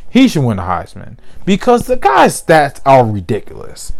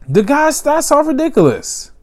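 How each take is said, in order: First: Said in the usual way. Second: Much higher, incredulous repeat; excited emphasis. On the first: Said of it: "repeats the claim louder". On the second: Real, not acted. Host raving about Trask's stats, incredulous. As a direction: pitch it up in disbelief. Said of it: "repeats with much higher pitch".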